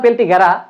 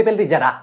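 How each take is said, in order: First: পেল্টি গেরা with a hard g, "gera"; supposed real pronunciation. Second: পেল্টি জেরা with a j, "jera"; own reading. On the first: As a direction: say পেল্টি গেরা with g opening the second word. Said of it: "উচ্চারণটা মনে হয়". (পেল্টি গেরা, "গ" দিয়ে উচ্চারণ) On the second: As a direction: say পেল্টি জেরা with j opening the second word. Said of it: "but আমি পড়ি". (পেল্টি জেরা, "জ" দিয়ে উচ্চারণ) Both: Shown as a demonstration.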